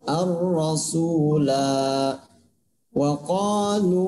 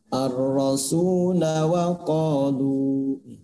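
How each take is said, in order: First: The la vowel is held long. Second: The la vowel is kept short. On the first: The reader pauses after this word. "Itu kalau dibaca waqaf" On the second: The reader joins it to the next word. "Itu ketika dia dibaca wasol"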